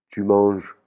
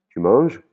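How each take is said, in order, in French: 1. C'est dit comme une simple affirmation. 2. C'est dit avec une intonation interrogative. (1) "ça veut dire que tu es en train de manger" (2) "si je change le ton de ma voix et que je te le dis comme ça"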